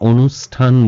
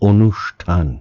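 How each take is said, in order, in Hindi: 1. बीच का सिबिलेंट एक सादा s ध्वनि है। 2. बीच का सिबिलेंट एक sh ध्वनि है। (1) "আমরা অনুষ্ঠান বলবো না" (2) "আমরা বলবো অনুষ্ঠান"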